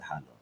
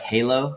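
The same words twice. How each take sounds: First: It is said with the Filipino pronunciation. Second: It sounds like the English word halo. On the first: "but we pronounce it halo" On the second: "it's like spelled like halo"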